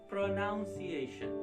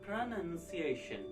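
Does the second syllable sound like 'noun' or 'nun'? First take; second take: noun; nun. First: The second syllable sounds like noun. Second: The second syllable sounds like nun. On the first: The speaker calls it wrong. "they say like this, pronunciation, which is also incorrect" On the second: The speaker calls it right. "so it becomes none. ... so you have to say pronunciation"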